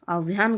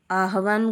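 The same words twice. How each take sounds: First: आह्वान with v shifted, aav-yaan; wrong form. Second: आह्वान with an extra vowel, aa-ha-vaan; wrong form. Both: Shown as a demonstration. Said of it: "गलत है".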